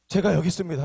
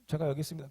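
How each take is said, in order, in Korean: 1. 따뜻하고 기꺼이 하려는 말투로 말합니다. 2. 짧고 퉁명스럽게, 마지못하는 말투로 말합니다. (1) "그런 게 아니라" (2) "되게 퉁명스럽게"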